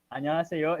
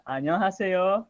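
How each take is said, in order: First: Said in the usual way. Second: Rushed, high "안녕하세요" as a learner mangles it; mock the common mistake on "안녕하세요"; hurried, sloppy "안녕하세요"; wrong pronunciation. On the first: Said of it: "já foi uma boa pronúncia". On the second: Shown as a demonstration. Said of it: "Não é assim".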